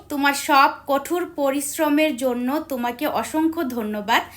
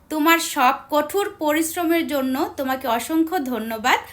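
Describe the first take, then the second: Both takes have the same delivery.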